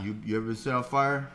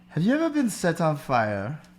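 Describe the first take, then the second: First: The question sounds menacing and threatening. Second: The question sounds warm and friendly. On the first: The person is making a threat. "a thug like threatening you" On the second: The person is offering something kindly. "they said it in a very endearing way"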